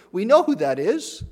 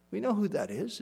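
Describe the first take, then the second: First: Said in the usual way. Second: Soft repeat. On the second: Real, not acted. Preacher to congregation, repeating the line hushed. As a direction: drop the voice right down on the repeat.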